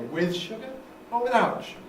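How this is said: The main stress falls on the word with. The speaker calls it right. "I don't put the nucleus on it the first time round"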